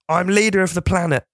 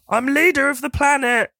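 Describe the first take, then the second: First: It is said with less energy. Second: It is said with more excited energy.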